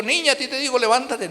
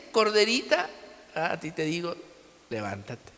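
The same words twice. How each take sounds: First: Ordenando con arrogancia fingida; orgulloso. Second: Tierno, mucho más suave al final; con cariño y autoridad. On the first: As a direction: como un Jesús altivo que manda sin cariño. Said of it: "con todo su orgullo". (con orgullo impostado, sin ternura) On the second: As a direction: como despertando con amor a una niña. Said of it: "con cariño y con autoridad". (con ternura, cada vez más suave) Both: Retold or imitated.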